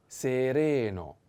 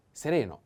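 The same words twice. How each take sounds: First: "sereno" drawn out syllable by syllable; slow model pronunciation. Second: Said in the usual way. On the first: Shown as a demonstration. Teacher models the new word for learners, slow "sereno". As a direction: stretch each vowel of "sereno" slowly.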